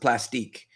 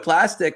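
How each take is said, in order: First: It ends in a long French-style 'eek' sound. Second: It ends in a short English-style 'ick' sound. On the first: "some people um, they pronounce it plastique" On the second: "I'm not French, so I just call it right"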